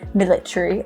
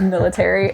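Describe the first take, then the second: First: The word is said with a British pronunciation. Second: The word is said with an American pronunciation. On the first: The speaker picked it up from British friends. "I'll come back and I'll say things like military" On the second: This is how the speaker normally says it. "instead of military"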